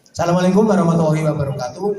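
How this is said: It sounds upbeat, like announcing community work.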